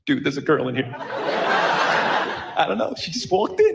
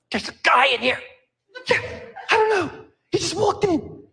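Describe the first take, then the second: First: Lower, slow bro voice, half-laughing; laid-back dude. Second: Gossipy, higher woman's voice, laughing; chatty woman. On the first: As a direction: drawl it out like a pleased guy in the locker room. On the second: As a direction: play a woman reporting it with giggly interest. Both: Retold or imitated. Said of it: "Same words, different intonation".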